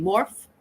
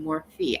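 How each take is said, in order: First: Morphe demonstrated as "morf"; one-syllable pronunciation. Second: Morphe demonstrated as "MOR-fee"; two-syllable pronunciation. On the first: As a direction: drop the final e of Morphe, "morf". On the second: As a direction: add a long ee ending to Morphe, "morfee". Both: Shown as a demonstration. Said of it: "if I'm saying Morphe".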